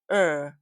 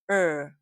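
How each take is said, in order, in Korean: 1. 자음 소리만 짧게 냅니다. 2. 자음 소리만 짧게 냅니다.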